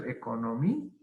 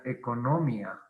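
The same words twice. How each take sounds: First: "economía" with long, rising MÍ, then separate a; correct stress. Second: "economía" stressed on NO, ecoNÓmia, ending as one syllable; wrong stress. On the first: Teacher showing the broken diphthong, exaggerated stress on MÍ in "economía". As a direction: stretch and lift MI in "economía", detach the final a. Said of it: "Pero es economía". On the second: Teacher showing how it would otherwise sound, stress shifted to NO in "economía". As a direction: hit NO in "economía" and run mia together. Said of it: "si fuera hiato, sería economía". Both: Shown as a demonstration.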